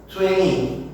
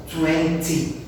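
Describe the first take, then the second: First: Twenty with the T dropped, said twenny; American twenty. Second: Twenty with a clear, crisp T; British twenty. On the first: Teacher shows students the American way, T dropped. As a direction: swallow the T in Twenty, American style. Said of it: "o americano ... vai falar o que pra nós?". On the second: Teacher shows students the London way, T pronounced. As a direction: say every T in Twenty, London style. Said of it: "eles vão falar o quê?". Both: Shown as a demonstration.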